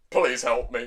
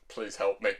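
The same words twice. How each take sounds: First: Lower-pitched mock begging at normal volume; emphatic, deadpan cry for help; insistent plea. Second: Low, very soft mock begging; small, helpless aside; quiet plea. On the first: Demon Lord repeats plea for rescue, insistently. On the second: Demon Lord dreads sleeping with witch, quietly pleading.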